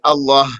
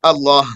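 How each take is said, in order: First: The long vowel is dropped; the final h stays. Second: The long vowel is dropped; the final h stays.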